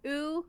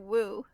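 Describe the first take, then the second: First: The syllable begins directly with the vowel. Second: The syllable begins with a w sound. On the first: "the first character is pronounced oo" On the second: "or woo, so it's either way"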